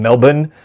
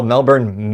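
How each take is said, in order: First: Mock-Australian "Melbourne" as MEL-bun; imitated Australian pronunciation. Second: Said in the usual way. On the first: Host mimicking a TV presenter, Australian-style Melbourne. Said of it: "the guy on Good Morning America would do that". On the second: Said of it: "He'd call Melbourne".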